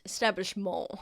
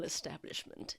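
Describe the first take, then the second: First: "Establishment" with a French-style ending, "-mawn"; French accent. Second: Said in the usual way. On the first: Acted. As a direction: say "Establishment" as if it were a French word. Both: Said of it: "he says it with a French accent".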